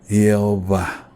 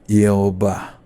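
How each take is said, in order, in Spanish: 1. El nombre empieza con un sonido Y. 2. El nombre empieza con un sonido Y.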